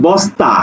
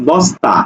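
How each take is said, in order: Both takes have the same delivery.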